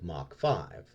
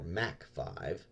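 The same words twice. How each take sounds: First: Mach is said with a broad 'ah' vowel, like 'mock'. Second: Mach is said with a short 'a' vowel, like 'mack'. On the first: "whenever we say ah, as in Mach" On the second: "Brits say ah, as in Mac"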